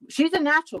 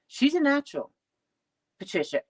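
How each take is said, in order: First: Emphatic repeat. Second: Said in the usual way. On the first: Acted. Father repeats it, more emphatic.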